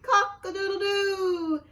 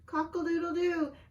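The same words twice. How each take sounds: First: It is said very loudly. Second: It is said a little louder.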